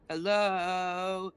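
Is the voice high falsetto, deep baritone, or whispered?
deep baritone. It is said in a deep baritone.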